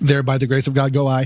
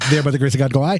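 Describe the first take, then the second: First: The phrase is said at a slower pace. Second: The phrase is said very quickly.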